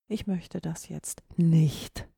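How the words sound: The stress falls on the word nicht. The speaker refuses completely. "Verneinung, auf gar keinen Fall"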